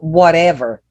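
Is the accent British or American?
American. It is said with an American accent.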